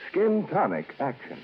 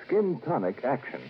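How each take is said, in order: Both takes have the same delivery.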